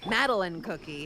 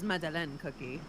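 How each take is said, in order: First: The name is said with an English accent. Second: The name is said with a French accent. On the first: This is the plain name of the character. "It's Madeline Madeline Cookie" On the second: This is how the character herself says it. "she also calls them with um with a French accent"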